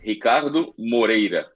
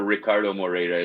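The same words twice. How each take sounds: First: The name is said with a Portuguese accent. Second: The name is said with an English accent. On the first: "full Portuguese is" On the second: "I go for Ricardo Moreira as well"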